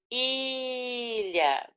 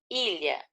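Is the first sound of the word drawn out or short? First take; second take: drawn out; short. First: The first sound is drawn out long. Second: The first sound is short and normal.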